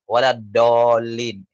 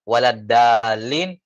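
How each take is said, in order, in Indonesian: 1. Bunyi d tebal dan penuh. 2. Bunyi d tipis dan ringan. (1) "membaca dal dengan tafkhim" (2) "dibaca tipis gitu ya. Dibaca uh, tarqiq"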